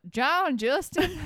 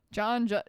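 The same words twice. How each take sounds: First: Put-on slow, higher Australian-accented name; exaggerated Australian drawl on the name. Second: Said in the usual way. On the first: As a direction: draw the name out in a mock Aussie accent. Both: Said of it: "couldn't say it without the accent".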